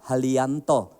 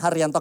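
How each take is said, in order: First: The name is said with an L instead of R. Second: The name is said with a clear R sound. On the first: "nggak bisa bilang R" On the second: "namaku kan [name], ada R-nya"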